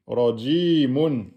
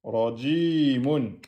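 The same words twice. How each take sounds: First: "Rajimun" read slowly, syllables joined; teacher blending the word; slow blended reading. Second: "Rajimun" repeated slowly and a bit softer; teacher repeating the word; slow quiet repeat. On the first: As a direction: draw out "Rajimun". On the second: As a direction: echo "Rajimun" gently. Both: Shown as a demonstration. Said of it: "le mim de fin avec tenwin".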